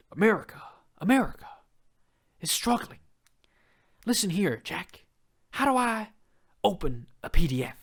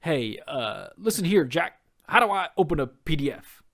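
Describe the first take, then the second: First: Higher, hammed-up folksy old politician with long dramatic pauses; a mock presidential speech that turns into a plea for tech help; Joe Biden impression. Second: Put-on a terrible old-president voice, a bit louder on the punchline; hammed-up folksy grandpa politician asking for tech help; Joe Biden impression. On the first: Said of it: "That's my best". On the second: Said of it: "this is my terrible Joe Biden impression".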